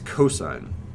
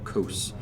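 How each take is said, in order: First: It is said as the full two-syllable word. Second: It is said as one short syllable. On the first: The speaker calls it right. "So this is cosine" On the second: The speaker calls it wrong. "not uh, cos or cos"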